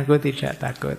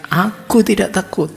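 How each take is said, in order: First: Said in the usual way. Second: Higher, louder retold yell of "Aku tidak takut", laughing through it; frightened student yelling at a rattling door; defiant yell. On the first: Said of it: "Meskipun kalimatnya". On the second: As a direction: shout it to prove you aren't scared, half amused. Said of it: "sambil teriak".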